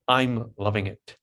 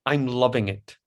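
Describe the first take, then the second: First: Slow "I'm loving it" with the beat on "I'm" and "lov"; iambic stress. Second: Said in the usual way. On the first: Shown as a demonstration. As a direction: spell out the rhythm slowly. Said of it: "that's two I ams in a row". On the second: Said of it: "so an example".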